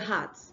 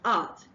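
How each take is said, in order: First: The word begins with an added h sound. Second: The word begins directly with the vowel. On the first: The speaker calls it wrong. "they say heart instead of art" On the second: The speaker calls it right. "which is art"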